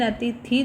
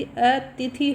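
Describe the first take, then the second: First: अतिथि with its t and th swapped, a-thi-ti; wrong pronunciation. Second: अतिथि slowly spaced out as a-ti-thi; correct pronunciation. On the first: Teacher warns students off a common error, mispronouncing अतिथि as a-thi-ti. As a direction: misplace the aspiration in अतिथि, as a-thi-ti. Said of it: "नहीं होता है जी". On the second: Teacher corrects the students' word, slow careful अतिथि as a-ti-thi. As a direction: slowly sound out अतिथि, plain t before aspirated th. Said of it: "होता है". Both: Shown as a demonstration.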